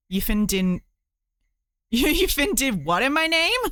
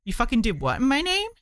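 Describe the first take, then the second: First: Fin read as it is spelt, in place of fucking; a half-laughing Jesus line with "fin" for fucking; reading fin aloud. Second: "fucking" said in full as the real word; Jesus line read properly with the full swear; corrected reading. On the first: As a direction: say "fin" exactly as written, a short odd word. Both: Retold or imitated. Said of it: "Is that supposed to be an abbreviation of fucking?".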